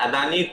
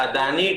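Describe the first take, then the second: Both takes have the same delivery.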